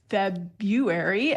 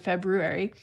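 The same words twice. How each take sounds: First: The first R sound is left out. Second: Both R sounds are clearly pronounced. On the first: "where we will delete a sound over time, as has happened for many of us in February" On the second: "as opposed to February"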